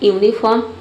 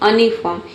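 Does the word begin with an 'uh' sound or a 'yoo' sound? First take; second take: yoo; uh. First: The word begins with a 'yoo' sound. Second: The word begins with an 'uh' sound. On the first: "एक तो हो सकता है यूनिफॉर्म" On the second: "यानी कि अ पढ़ेंगे"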